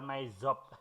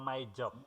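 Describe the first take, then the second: First: Job begins with a z sound. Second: Job begins with a j sound. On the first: The speaker calls it wrong. "bukan Z" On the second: The speaker calls it right. "tapi J"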